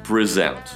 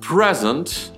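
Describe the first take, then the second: First: The stress is on the second syllable. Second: The stress is on the first syllable. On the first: It is a verb. "ударение на втором – это глагол" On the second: It is a noun meaning a gift. "Ударение на первом слоге – это существительное"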